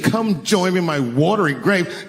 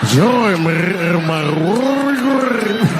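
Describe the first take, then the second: First: It is said in a plain voice. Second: It is said with a rolling, gurgling throat.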